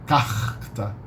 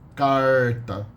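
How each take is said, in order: First: The r is a throaty h-like sound. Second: The r sounds like an American English r. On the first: This is the Rio de Janeiro pronunciation. "In Rio de Janeiro, most people say carta" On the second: This is the rural caipira pronunciation. "a pronunciation very similar to uh, the American English R"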